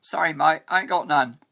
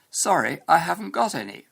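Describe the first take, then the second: First: Louder common British street accent; slangy English accent, "mate" as "mite"; colloquial British accent. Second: Higher, louder textbook British English; reply in classroom standard British English; standard English accent. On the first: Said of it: "what if the person you're talking to replied". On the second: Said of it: "what you learn in your English classes". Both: Shown as a demonstration.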